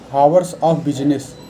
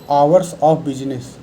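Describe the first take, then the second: First: The word begins with an audible H sound. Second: The word begins directly with a vowel. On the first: The speaker calls it wrong. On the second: The speaker calls it right.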